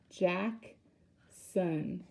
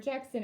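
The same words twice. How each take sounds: First: "Jackson" broken in two with a long pause; split into syllables. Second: Said in the usual way. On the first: Shown as a demonstration. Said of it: "We know that's two syllables". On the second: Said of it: "that's two syllables".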